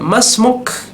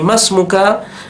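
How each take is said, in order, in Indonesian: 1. Kata ini berakhir pada konsonan mati. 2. Kata ini berakhir dengan vokal penuh. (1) "di lapangan langsung disukunkan" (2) "itu kalau kita sedang membaca"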